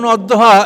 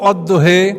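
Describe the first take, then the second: First: The word ends in an open a vowel. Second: The word ends in an e vowel. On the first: "এটা যেমন অদ্দহা" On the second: "এটাকে কোনো জাতি পড়তো অদ্দহে"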